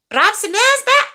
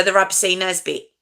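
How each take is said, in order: First: High-pitched mock Scottish accent. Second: Said in the usual way. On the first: Shown as a demonstration. Streamer showing off the name after the comb-over remark, Scottish accent. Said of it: "that's my Scottish accent".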